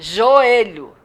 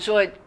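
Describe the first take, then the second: First: The two vowels are said in separate syllables. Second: The two vowels glide together in one syllable. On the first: The speaker calls it right. "Eu tenho que falar as duas vogais" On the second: The speaker calls it wrong. "Não falo joelho"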